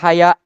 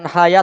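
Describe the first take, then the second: First: The word ends in a long vowel and glottal stop. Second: The word ends in a short plain vowel. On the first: The speaker calls it wrong. "membacanya dengan mamdud" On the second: The speaker calls it right. "bukan haya"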